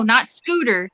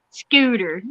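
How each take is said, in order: First: Said in the usual way. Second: Scooter with a light Southern drawl; Southern twang. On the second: Shown as a demonstration. Correcting the coworker, naming the fish in Southern twang. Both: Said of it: "you have to say it with that Southern twang".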